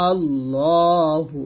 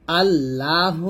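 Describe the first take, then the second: First: "আল্লাহু" slow, with a rounded aw, al-law-hu; correct heavy "আল্লাহু". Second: "আল্লাহ" with a thin, open a, al-laa-hu; wrong thin "আল্লাহ". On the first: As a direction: thicken and stretch the middle of "আল্লাহু". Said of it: "আল্লাহু বলবেন". ("আল্লাহু" মোটা ল টেনে, আল্লোহু) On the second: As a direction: say "আল্লাহ" slowly with a light laa. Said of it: "আল্লাহ না বলে". ("আল্লাহ" পাতলা লা দিয়ে) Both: Shown as a demonstration.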